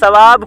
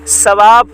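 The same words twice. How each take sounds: First: The first consonant is a soft th sound. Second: The first consonant is a hard s sound. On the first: "सा को बारीक पढ़ने" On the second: "सीन की तरह सख्त पढ़ दें"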